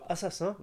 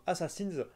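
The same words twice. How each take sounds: First: "Assassin" said the French way, nasal final vowel; "Assassin" ending in French "-in"; French pronunciation. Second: "Assassins" in French-accented English; French speaker's English, final "-ins" sounded as "-inz"; poor English accent. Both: Real, not acted. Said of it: "mon accent anglais est déplorable".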